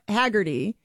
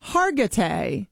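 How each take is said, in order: First: Haggerty said "HAG-er-tee"; flat "a" and a final "tee" in Haggerty; wrong name demonstrated. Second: Hargitay said "HAR-guh-tay", slowly; slow, careful Hargitay ending in "tay"; correct name demonstrated. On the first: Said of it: "so it's not". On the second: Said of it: "It's Mariska". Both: Shown as a demonstration.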